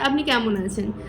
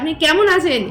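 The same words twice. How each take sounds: First: It is said in a calm, normal voice. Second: It is said loudly with strong force. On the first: A friendly, ordinary greeting. "আমি যদি বলি আপনাকে যে" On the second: The meaning of the sentence changes. "খুব জোর দিয়ে বলি ... এরম ভাবে যদি বলি"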